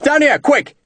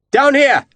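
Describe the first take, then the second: First: Urgent shout. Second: Shouting. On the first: Lieutenant shouting urgently for the redcoats to come quickly. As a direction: yell again, urging them to hurry. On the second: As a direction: yell to the soldiers up in the trees. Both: A narrator's reading. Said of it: "he shouted".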